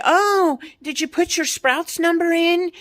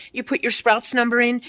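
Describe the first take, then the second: First: Higher, chirpy mock of the cashier asking about the number. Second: Said in the usual way. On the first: Ranting about store apps, mocking a Sprouts cashier in a higher voice. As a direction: parrot the cashier's canned question, pitched up.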